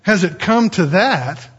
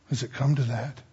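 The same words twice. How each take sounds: First: "Has it come to that" slow and emphatic; pointed repeat. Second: Low, soft question after a breath; hushed dismay. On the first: Preacher throwing the soldier's question at listeners, pointed emphasis. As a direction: lean on "come" and "that", slowly. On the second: Soldier answering his foxhole partner, hushed dismay. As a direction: ask it under your breath, low. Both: Acted.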